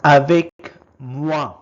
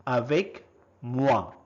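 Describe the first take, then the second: First: First take, projected clearly for the class; loud model word. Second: Said in the usual way. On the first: Shown as a demonstration. Teacher modelling a French word for learners, loud and clear. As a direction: call out the French word loudly. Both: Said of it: "is called".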